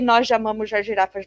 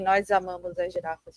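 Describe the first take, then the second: First: The s between words sounds like sh, European-style. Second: The s between words sounds like z, Brazilian-style.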